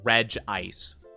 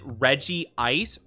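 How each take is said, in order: First: The name is said with two syllables, 'reg-ice'. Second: The name is said with three syllables, 'reggie-ice'. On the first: "or do you pronounce it Reg Ice?" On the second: "do you pronounce it Reggie Ice"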